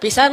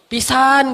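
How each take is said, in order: First: The vowel is said at normal length. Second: The vowel is stretched out long. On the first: It is an ordinary intensifier. "Kalau biasa aja" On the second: It expresses strong amazement. "Pisannya tuh panjang"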